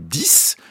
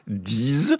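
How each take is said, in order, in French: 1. Le mot se termine par un son s. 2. Le mot se termine par un son z. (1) "si je veux dire j'en veux 10" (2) "si je veux dire 10 amis"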